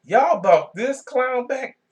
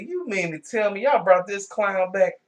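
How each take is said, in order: First: Slow, higher and incredulous, leaning on y'all; stunned disbelief. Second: A touch of incredulous mock outrage, pitched up; disbelieving retort. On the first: Retold or imitated. Vlogger repeating his outrage at the wrestler's return, slow and incredulous. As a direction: drag it out like you truly can't believe it. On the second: Vlogger retelling his reaction to the returning wrestler, mildly incredulous. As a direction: ask it like you can't believe it, lightly. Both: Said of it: "I said".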